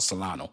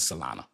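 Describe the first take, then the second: First: The name ends with an 'oh' sound. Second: The name ends with an 'ah' sound. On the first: The speaker calls it wrong. "I mess it up and I chop it up. I call it Solano" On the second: The speaker calls it right. "correct pronunciation is Solana"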